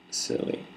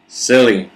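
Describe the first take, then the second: First: Soft, whispered silly; whispered variation. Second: Silly called out loudly; loud variation. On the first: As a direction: whisper the word under your breath. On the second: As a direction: shout the word silly with a falling tune. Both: Shown as a demonstration. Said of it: "say the word silly in many different ways".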